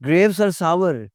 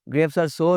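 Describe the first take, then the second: First: The last word has a two-part 'ow-er' vowel. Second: The last word has a single 'or' vowel. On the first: The speaker calls it right. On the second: The speaker calls it wrong. "नहीं होता भाई"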